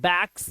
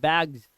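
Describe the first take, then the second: First: The word ends with an s sound. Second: The word ends with a z sound. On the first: The speaker calls it wrong. "इसे बैग्स नहीं पढ़ते" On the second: The speaker calls it right. "सा नहीं आता है last में, ये जास आता है"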